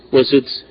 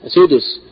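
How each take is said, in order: First: "وسدس" as wa-suds, no vowel after the d; sukun on dal. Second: "سدس" as sudus, with u after the d; damma on dal. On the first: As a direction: run d straight into s in "وسدس". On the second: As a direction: give "سدس" two syllables, short u in both. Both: Shown as a demonstration. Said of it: "ضم الدال وسكونها".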